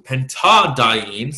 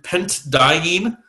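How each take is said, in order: First: A vowel links the two consonants together. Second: Two consonants meet with no vowel between them. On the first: The speaker calls it right. "sounds a lot better" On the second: The speaker calls it wrong. "that kind of sounds awkward"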